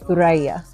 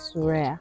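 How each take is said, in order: First: The name begins with a TH sound. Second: The name begins with an S sound. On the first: This is how it is said in Arabic. "In Arabic, Thuraya" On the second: This is how Swahili speakers say it. "people from Swahili say Suraya"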